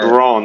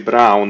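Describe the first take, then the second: First: The name is said the non-German way. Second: The name is said the German way. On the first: The speaker calls it wrong. "No, you don't say Braun" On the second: The speaker calls it right. "In German, you say Brown"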